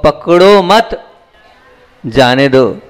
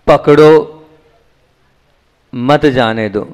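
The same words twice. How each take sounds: First: "पकड़ो मत" drawn out as one phrase, stop, "जाने दो"; pause after मत. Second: "पकड़ो", a long stop, "मत जाने दो" as one phrase; pause after पकड़ो. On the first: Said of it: "यह बात धर्म जगत की है". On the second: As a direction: break firmly after पकड़ो, keeping मत with जाने दो. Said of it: "यह बात संसार की है". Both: Shown as a demonstration.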